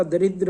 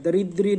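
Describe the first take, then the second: First: दरिद्र said with no final vowel, ending on र; correct form. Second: दरिद्री said with a long final ई, as the mistaken form; wrong form. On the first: Teacher giving students the correct form, दरिद्र without final ee. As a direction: say दरिद्र cleanly, stopping on the र. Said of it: "दरिद्र होता है". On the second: Teacher showing students the wrong form, दरिद्री with final ee. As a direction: say दरिद्री ending on a clear ee sound. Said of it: "दरिद्री नहीं होता". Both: Shown as a demonstration.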